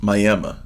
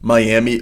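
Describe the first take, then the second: First: The name is said the local way. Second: The name is said the usual way.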